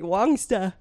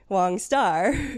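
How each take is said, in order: First: It is said with an Australian accent. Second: It is said without an Australian accent. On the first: "where he would say Wongsta" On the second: "the non-Australian pronunciation is Wong Star"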